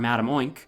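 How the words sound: The name is pronounced with an American accent. The speaker calls it wrong. "I'm just saying it the American way"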